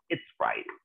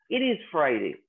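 First: It is contracted into one short syllable. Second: It is said as two separate full words.

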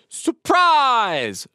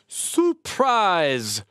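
First: The 'prize' part is exaggerated with an open mouth. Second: The 'prize' part is said plainly. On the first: "exaggerate prize, open our mouth up" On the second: "we're going to join them together"

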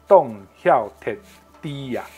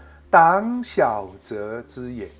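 First: The phrase is read with Southern Min pronunciation. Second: The phrase is read with Mandarin pronunciation.

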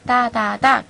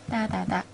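First: It is said rather slowly. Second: It is said more quickly.

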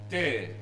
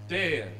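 The two takes are said the same way.

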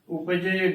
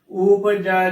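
First: The word ends in an e vowel. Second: The word ends in an ai vowel. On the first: The speaker calls it wrong. "ਉਪਜੇ ਗਲਤ ਉਚਾਰਨ ਹੋਏਗਾ" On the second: The speaker calls it right. "ਜੱਜੇ ਨੂੰ ਗਲਾਵਾਂ ਦੇ ਨਾਲ ਹੀ ਉਚਾਰਨ ਕਰਨਾ ਹੈ"

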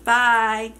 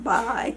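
First: It is said in a flat voice. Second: It is said in a lively voice.

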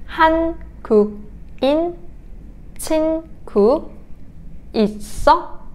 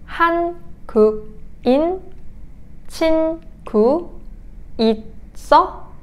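No difference in how they are said.

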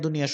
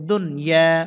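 First: An extra 'i' vowel follows the 'n'. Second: The 'n' closes the first syllable with no vowel. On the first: The speaker calls it wrong. "নুনে যখন সাকিন ছুটে যায় দুনিয়াটা দুনিয়া দুনিয়া শোনা যায়" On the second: The speaker calls it right. "দাল নুন পেশ দুন"

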